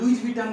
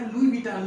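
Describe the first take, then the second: First: The s at the end of Louis is pronounced. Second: The s at the end of Louis is silent. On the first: The speaker calls it wrong. "लुइज विटन नहीं है" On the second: The speaker calls it right. "तो ये लुई विटन है"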